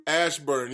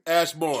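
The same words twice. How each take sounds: First: Ashburn said right as ASH-burn; host correcting himself to Ashburn; corrected Ashburn. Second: Ashbourne said as ASH-born, wrong vowel; host mangling the town name Ashbourne; mispronounced Ashbourne. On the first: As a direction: fix it to Ashburn. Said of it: "yes, that's it". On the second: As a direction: stumble into Ashbourne instead of Ashburn. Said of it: "Is he trying to say Ashburn?". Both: Real, not acted.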